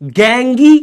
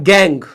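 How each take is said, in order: First: गैंगी in two syllables, rising on the ee; supposed logical pronunciation. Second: गैंग as one syllable, no ee; actual English pronunciation. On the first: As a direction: add a sounded ee to gang, गैंगी. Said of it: "और ये क्या होना चाहिए था?". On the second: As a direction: finish on a falling गैंग, ending silent. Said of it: "और ये होता है". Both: Shown as a demonstration.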